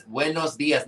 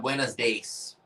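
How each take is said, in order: First: Said in the usual way. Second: "days" as English days, drawn slowly; anglicized buenos días. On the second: Shown as a demonstration. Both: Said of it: "not buenos days".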